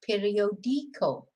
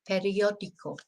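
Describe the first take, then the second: First: The stress falls on the syllable di. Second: The stress falls on the syllable o. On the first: "If it wasn't there, it'd be periodico. ... the natural stress is on the I" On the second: "the accent is there to tell us to stress that letter"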